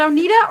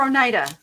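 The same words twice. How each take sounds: First: Oneida with NEE in the middle, oh-NEE-da; alternate pronunciation. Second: Oneida with a long I, oh-NYE-da; usual pronunciation. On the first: Streamer asks viewers how they say it, Oneida as oh-NEE-da. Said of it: "How do you guys say it?". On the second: Streamer offers viewers the other option, Oneida as oh-NYE-da. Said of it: "I've always said Oneida". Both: Shown as a demonstration.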